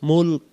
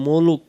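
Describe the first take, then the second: First: The L joins the K with no vowel between. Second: An extra vowel sounds between the L and K. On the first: The speaker calls it right. "মুল মিলবে কাবের সাথে মুলক" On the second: The speaker calls it wrong. "আমরা অনেকে বলি মুলুক না"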